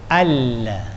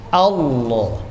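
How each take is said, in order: First: The l sound in Allah is thin. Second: The l sound in Allah is thick. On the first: The speaker calls it wrong. "Tipis tak boleh" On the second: The speaker calls it right.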